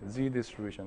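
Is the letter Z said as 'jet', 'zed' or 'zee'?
zee. The letter is said the American way, 'zee'. The speaker calls it right. "let's read it like z"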